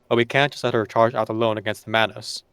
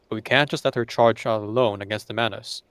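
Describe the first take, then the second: First: A stronger American accent with a more open mouth. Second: A weaker, less open-mouthed American accent. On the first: The speaker calls it right. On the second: The speaker calls it wrong.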